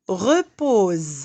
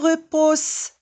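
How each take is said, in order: First: The middle consonant is a buzzing Z sound. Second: The middle consonant is a hissing S sound. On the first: The speaker calls it right. "Lorsque S est entre deux voyelles, on le prononce Z" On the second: The speaker calls it wrong. "On ne dit pas repose"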